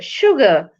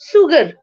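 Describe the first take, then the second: First: The word begins with an sh sound. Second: The word begins with an s sound. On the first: "The sound is sh" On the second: "should be sugar"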